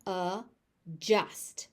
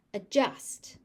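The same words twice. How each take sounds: First: "Adjust" split into two slow syllables; overpronounced. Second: Said in the usual way. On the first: Shown as a demonstration. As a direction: say "Adjust" with a pause after the first vowel. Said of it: "I will overpronounce it". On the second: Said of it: "I will say the word normally".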